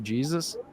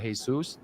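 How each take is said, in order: First: Jesus is pronounced the English way. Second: Jesus is pronounced the Spanish way. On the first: The name is translated into English. The speaker calls it wrong. "I thought he was Del Rio Jesus" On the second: This is the name as it is meant. The speaker calls it right. "I guess his name is Del Rio Jesus"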